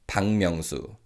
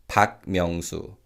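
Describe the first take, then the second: First: No pause; the surname's final sound becomes ng. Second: A pause separates the surname; its final k is heard. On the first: The name is said like a single word. "with no pause between the surname and the first name" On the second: The name is said like two separate words. "with a clear pause between the surname and the first name"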